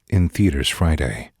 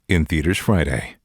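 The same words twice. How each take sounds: First: It is voiced in a drama trailer tone. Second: It is voiced in a comedy trailer tone. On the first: The film is a drama. "Now drama" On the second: The film is a comedy. "Now comedy"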